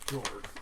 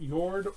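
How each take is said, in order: First: The word begins with a hard J sound. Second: The word begins with a soft Y sound.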